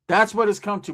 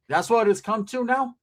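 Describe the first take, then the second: First: Flat falling conclusion; falling, settled close; resigned statement. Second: Rising, disbelieving question; higher, rising disbelief; incredulous question. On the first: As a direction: state it like a sad fact. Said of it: "repeated as statement". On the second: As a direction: ask it like you can't believe it. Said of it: "repeated, question then statement". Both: Real, not acted.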